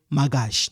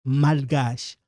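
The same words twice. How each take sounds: First: "magache" with no l before the g; dropped L. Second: "malgache" with the l clearly sounded before the g; pronounced L. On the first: Teacher showing the mistake to avoid, L left silent. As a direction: leave out the l: "magache". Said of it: "You don't say magache". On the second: Teacher showing the correct word, audible L. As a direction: sound the l in "malgache": mal-gache. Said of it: "you pronounce it malgache". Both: Shown as a demonstration.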